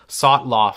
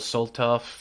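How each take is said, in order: First: The name is said as Sotloff, t before l. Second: The name is said as Soltov, l before t. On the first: The speaker calls it right. "or Sotloff, sorry" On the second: The speaker calls it wrong. "I've been pronouncing it wrong"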